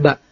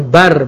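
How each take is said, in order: First: The syllable ends without an r sound. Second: The syllable ends with an r sound. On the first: The speaker calls it wrong. "menghilangkan satu huruf" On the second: The speaker calls it right. "Harusnya bar"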